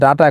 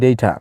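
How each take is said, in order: First: The first vowel sounds like 'ah'. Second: The first vowel sounds like 'ay'. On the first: This is how people said it before. "আগে বলতাম ডাটা" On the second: This is how people say it now, to sound advanced. "এখন বলি ডেটা"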